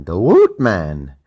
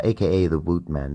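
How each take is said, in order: First: Loud, drawn-out sign-off name; hype announcement. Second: Said in the usual way. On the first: Acted. Host announcing his own nickname, loud and stretched. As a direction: belt out your nickname.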